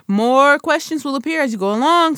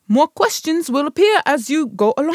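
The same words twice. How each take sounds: First: It is said in the speaker's own accent. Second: It is said in a put-on English accent.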